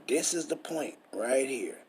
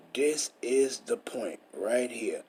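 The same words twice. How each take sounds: First: Said in the usual way. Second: Slow breathy whisper on the point; hushed emphasis, slowed right down. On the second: Shown as a demonstration. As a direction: lean in and whisper it slowly. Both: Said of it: "I'm highlighting it".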